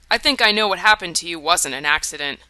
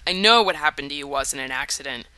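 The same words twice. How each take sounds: First: "think" leaned on, tentative; hedged with think. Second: "know" said flat and certain; firm stress on know. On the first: Mark hedging to Rose, stress on think. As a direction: lean on "think", unsure. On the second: Mark correcting himself to Rose, stress on know. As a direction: land hard on "know". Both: Acted. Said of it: "Scratch that".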